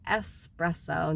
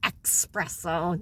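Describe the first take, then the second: First: The word begins with a plain 's' sound. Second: The word begins with a 'ks' sound. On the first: The speaker calls it right. "notice I say espresso" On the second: The speaker calls it wrong. "not espresso. No, it doesn't have an X in it"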